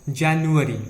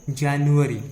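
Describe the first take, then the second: No difference in how they are said.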